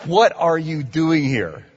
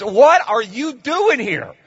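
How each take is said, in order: First: Said in the usual way. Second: Loud, much higher hostile challenge; demons defiant. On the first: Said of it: "one of the lovely people greeting you said". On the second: Acted. Demons confronting Jesus, loud high hostile challenge. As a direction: hurl it like a snarling demon. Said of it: "that's what these demons are saying to Jesus".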